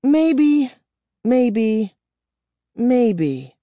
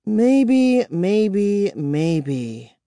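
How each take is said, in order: First: High, loud, then fading mockery; glum repetition. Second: Bitter. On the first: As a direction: repeat it, sinking into gloom. She shook her head glumly. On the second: Acted. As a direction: repeat it bitterly, fading away. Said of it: "she repeated bitterly".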